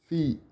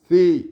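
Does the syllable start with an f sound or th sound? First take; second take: f sound; th sound. First: It starts with lip and teeth, an f sound. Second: It starts with the tongue between the teeth.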